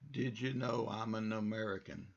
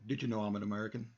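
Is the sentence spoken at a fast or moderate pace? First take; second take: moderate; fast. First: The sentence is spoken at a moderate pace. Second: The sentence is spoken at a fast pace. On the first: "I'm not really talking that fast" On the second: "If I wanted to speed it up"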